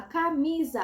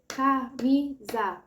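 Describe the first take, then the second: First: Said in the usual way. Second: Camisa split as CA... MI... SA; syllable by syllable. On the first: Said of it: "você vai falar camisa". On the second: Shown as a demonstration. Child's turn in the clapping exercise, camisa broken syllable by syllable. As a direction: say "camisa" slowly in three separate, even syllables. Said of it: "A criança vai fazer camisa".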